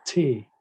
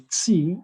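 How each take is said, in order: First: "T" said as the German letter, teh; German letter name "T", tay without a glide. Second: "T" said as the English letter, tee; English letter name "T", rhyming with see. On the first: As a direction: say "T" with an ay-like German vowel. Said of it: "in, in German". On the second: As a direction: say "T" with a long ee vowel. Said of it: "is pronounced as T in, in German". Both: Shown as a demonstration.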